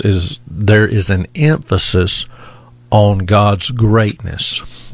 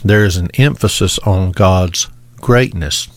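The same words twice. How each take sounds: First: "God's greatness" drawn out slowly, with each word weighted; slow emphatic point. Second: Said in the usual way. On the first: Shown as a demonstration. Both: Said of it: "the first thing that I want to draw to your attention".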